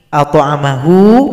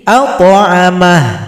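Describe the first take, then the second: First: The word ends with a final vowel. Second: The final vowel is dropped, ending on a consonant. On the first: The reading continues into the next word. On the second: The reading stops here.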